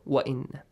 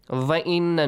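First: The first word starts with a W sound. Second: The first word starts with a V sound. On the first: The speaker calls it right. "It's like W sound" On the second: The speaker calls it wrong. "we should not pronounce it like V"

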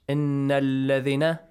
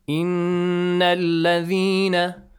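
First: The doubled n and long vowel are cut short. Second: The doubled n and long vowel are held long. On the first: The speaker calls it wrong. "It's wrong" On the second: The speaker calls it right. "you have to prolong it for two counts"

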